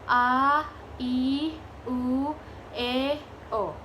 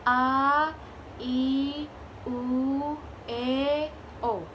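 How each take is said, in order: Both takes have the same delivery.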